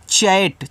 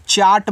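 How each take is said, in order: First: चैट said as "chat", front vowel; correct "ai" vowel. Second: चाट said as "chaat", like the snack; wrong long-aa reading. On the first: Teacher showing learners how to read chat, चैट with front vowel. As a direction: say चैट with a short English a. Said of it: "इसको पढ़ते हैं चैट". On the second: Teacher warning learners off the snack word, चाट as "chaat". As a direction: misread chat as चाट with long "aa". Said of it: "चाट मत पढ़ देना खाने वाला". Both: Shown as a demonstration.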